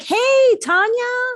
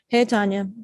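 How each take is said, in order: First: It is said in a warm, excited way. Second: It is said in a bored, flat way.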